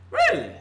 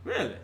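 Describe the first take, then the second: First: "Really?" shot up much higher in disbelief; can't believe what he's hearing; incredulous. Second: Said in the usual way. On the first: Real, not acted. Fan scoffing at jersey-trashing, with high incredulous disbelief.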